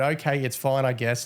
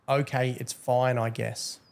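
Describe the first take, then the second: First: Said in the usual way. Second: Mock sulky read. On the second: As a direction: read it like a sulking kid giving up. Reading the banned player's reply.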